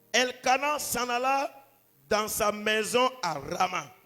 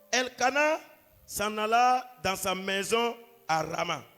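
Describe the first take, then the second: No difference in how they are said.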